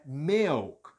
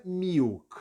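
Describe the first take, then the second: First: "milk" with an E, "mehlk"; correct E vowel. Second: "milk" with a clear I, "miwk"; wrong I vowel. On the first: Teacher correcting the learner, "milk" with E. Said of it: "É milk". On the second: Teacher showing what to avoid, "milk" with I. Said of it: "essa palavra não é". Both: Shown as a demonstration.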